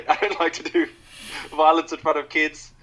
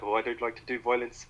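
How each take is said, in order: First: Higher, louder South African villain; South African accent. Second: Put-on light South African accent on violence; a hint of South African villain. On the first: Retold or imitated. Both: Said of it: "I shouldn't do the South African accent".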